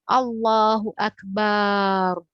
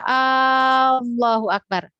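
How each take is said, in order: First: The final vowel of Akbar is drawn out. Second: The opening vowel of Allahu is drawn out. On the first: It means drum. "Yang dipanjang tuh akbarnya di belakang" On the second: It asks whether God is great. "Apakah Allah Maha Besar? Nauzubillah itu mempertanyakan"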